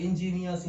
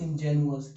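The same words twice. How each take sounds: First: Slow, careful ingenious; teacher spelling out ingenious with ee sound, slowly; careful slow pronunciation. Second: Ingenuous said with u sound, jen-yoo-us; teacher contrasting ingenuous against ingenious, carefully; careful pronunciation. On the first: Teacher contrasting two words for students, slow and careful. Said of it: "ये सोचिए". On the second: Teacher showing students the changed vowel, carefully. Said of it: "क्या change हुआ सोचो". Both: Shown as a demonstration.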